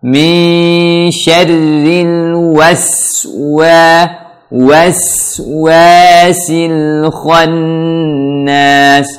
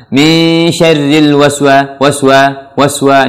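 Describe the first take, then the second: First: "waswasil khannas" chanted very slowly, every sound held; rounded W and long thin S in "waswa"; correct tajweed recitation. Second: "waswa" quick and loose, barely rounded W; careless wrong recitation. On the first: Teacher showing learners the right way, slow chanted "waswasil khannas". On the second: Teacher imitating learners' mistake, careless short "waswa". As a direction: toss off "waswa" without drawing out the S. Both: Shown as a demonstration. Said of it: "Ini salah".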